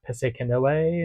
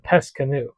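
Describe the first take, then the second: First: The ending is not said like canoe. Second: The ending is said like the word canoe. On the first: The speaker calls it wrong. "people were pronouncing this like Pescanoe" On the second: The speaker calls it right. "It's the word is canoe"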